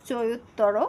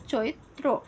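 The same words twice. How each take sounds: First: চৈত্তর read as "choit-tor", the doubled t held and an extra o before the r; teacher reading out the wrong option চৈত্তর as "choit-tor"; wrong pronunciation option. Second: চৈত্র said as "choitro", one short t flowing straight into r; teacher settling on চৈত্র as "choitro"; correct pronunciation. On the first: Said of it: "চৈত্র শব্দের শুদ্ধ উচ্চারণ হচ্ছে". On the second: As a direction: give চৈত্র as a clean "choitro", no extra vowel. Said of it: "সঠিক উচ্চারণটা হবে". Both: Shown as a demonstration.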